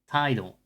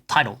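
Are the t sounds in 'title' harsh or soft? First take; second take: soft; harsh. First: The t sounds are softer and less forceful. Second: The t sounds are sharp, harsh and forceful. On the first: The speaker calls it right. "No, it's title" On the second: The speaker calls it wrong. "I always say this word so weird"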